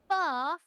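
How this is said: The word is said with a British accent. The speaker calls it right. "we speak the Queen's British here"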